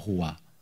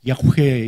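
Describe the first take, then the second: First: The name is said with three syllables, yeo-ho-wa. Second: The name is said with two syllables, ya-hwe. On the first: This is the familiar but less accurate reading. The speaker calls it wrong. "우리가 아는 여호와 이렇게 발음하는 거예요" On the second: This is closer to the actual Hebrew pronunciation. The speaker calls it right. "실제적으로 어떻게 하면 야훼 이렇게 발음해요"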